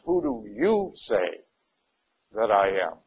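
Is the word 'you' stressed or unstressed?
stressed. The word 'you' is strongly stressed.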